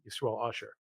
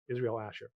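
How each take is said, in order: First: The name is said as Yisrael Usher. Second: The name is said as English Israel Asher. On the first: This is the form the family actually uses. "he goes by Usher" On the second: This is the official written form. "the birth certificate versions"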